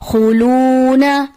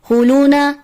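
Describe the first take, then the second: First: The long u vowel is fully lengthened. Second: The long u vowel is cut short. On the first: The speaker calls it right. "दुरुस्त अदायगी है" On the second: The speaker calls it wrong. "जिसको मुकम्मल पढ़ा नहीं जाता"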